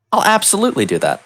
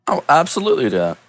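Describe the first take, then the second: First: Much higher, eager yes-man; eager agreement. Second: Fast, brisk yes; quick agreement. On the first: Hero agreeing to the mayor's plan, much higher and eager. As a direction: pitch it up like an overkeen hero. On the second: Hero accepting the mayor's plan, fast and brisk. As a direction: rattle it off like a ready hero. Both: Acted.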